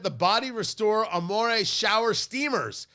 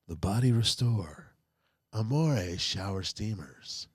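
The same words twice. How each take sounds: First: It is read in a plain, ordinary tone. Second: It is read in a soft, romantic tone.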